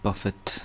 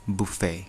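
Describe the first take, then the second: First: It ends with a clear t sound. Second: It ends in a vowel with no t. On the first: To push someone around. "यही spelling हो तर different pronunciation" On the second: Food laid out in rows at a party. "बुफे अर बफे एउटै हो"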